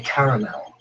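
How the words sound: The word is said with an Australian pronunciation. "in Australia we say caramel"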